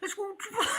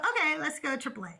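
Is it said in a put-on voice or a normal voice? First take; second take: put-on; normal. First: It is said in Doug's put-on idiot voice. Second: It is said in the speaker's normal voice.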